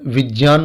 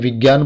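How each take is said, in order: First: The middle cluster sounds like 'jy'. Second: The middle cluster sounds like 'gy'. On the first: This is the traditional scholarly pronunciation. "गुरुकुल शिक्षा पद्धति की बात करें तो वहां पर विज्ञान बोला जाता है" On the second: This is the common everyday pronunciation. "हमारे समाज में इसको ज्ञ बोला जाता है, जैसे विज्ञान बोलते हैं"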